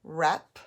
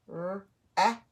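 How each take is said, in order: First: Said in the usual way. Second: "R, ep" as separate sounds of rep, with gaps; sounding out. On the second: Shown as a demonstration. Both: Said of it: "What's the first syllable there?".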